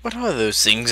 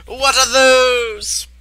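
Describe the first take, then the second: First: Said in the usual way. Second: Drawn-out high yelp of disbelief; high-pitched outcry. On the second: Acted. Reacting to those things, high-pitched outcry. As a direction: stretch the question out, high and slow.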